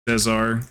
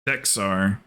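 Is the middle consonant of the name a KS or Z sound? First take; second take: Z; KS. First: The middle consonant is a Z sound. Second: The middle consonant is a KS sound.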